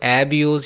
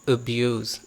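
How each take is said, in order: First: The first vowel is a clear eh sound. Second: The first vowel is a short weak uh sound. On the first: The speaker calls it wrong. "एब्यूज़ या आब्यूज़ नहीं बोलना" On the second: The speaker calls it right. "हमने श्वा का sound दे के बोला"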